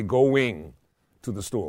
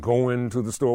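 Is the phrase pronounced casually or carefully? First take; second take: carefully; casually. First: Every word is said fully and crisply. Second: The words are said loosely, with sounds dropped. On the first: The speaker calls it right. "why don't we say going to the store? Why don't we make every word right?" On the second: The speaker calls it wrong. "Instead of saying"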